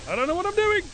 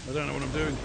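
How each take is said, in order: First: High, loud panicked wail; panicked shout. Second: Said in the usual way. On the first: Real, not acted. Gamer overwhelmed by zombies, shouting in high panic. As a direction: cry it out in real panic.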